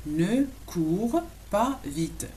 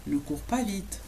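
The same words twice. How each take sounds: First: "Ne cours pas vite" very slowly, a gap between words. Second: Said in the usual way. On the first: Shown as a demonstration. Teacher teaches "don't run fast", slowly word by word. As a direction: draw out each word for learners.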